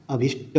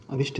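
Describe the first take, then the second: First: अभिष्ट released into a final ṭa; correct word ending. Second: अभिष्ट stopping on a bare ṭ; wrong word ending. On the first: Teacher correcting the word, clear final ṭa. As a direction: sound the last vowel of अभिष्ट. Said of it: "होता है". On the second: Teacher showing the mistake, bare final consonant. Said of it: "नहीं होता है". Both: Shown as a demonstration.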